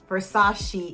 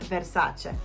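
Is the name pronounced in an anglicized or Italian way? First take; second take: anglicized; Italian. First: The name is pronounced in an anglicized way. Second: The name is pronounced in an Italian way. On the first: The speaker calls it wrong. "It's not Versace, Versace" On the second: The speaker calls it right. "it's Versace"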